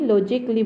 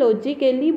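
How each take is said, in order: First: No vowel is heard before the final 'lee'. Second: A full vowel is heard before the final 'lee'. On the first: The speaker calls it right. "আমি লজিকলি বুলি পঢ়িব লাগে" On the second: The speaker calls it wrong. "ইয়াক আমি লজিকেলি বুলি নপঢ়োঁ"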